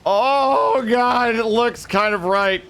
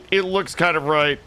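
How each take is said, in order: First: High, giddy gasp into the words; excited realisation. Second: Said in the usual way. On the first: Real, not acted. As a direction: jump up at the sudden good news. Realises he might be right.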